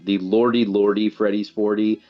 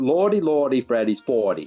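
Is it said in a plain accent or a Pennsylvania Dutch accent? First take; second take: plain; Pennsylvania Dutch. First: It is said in the speaker's plain accent. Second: It is said in a Pennsylvania Dutch accent.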